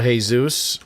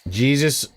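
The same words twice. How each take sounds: First: The name is said with Spanish pronunciation. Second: The name is said with English pronunciation.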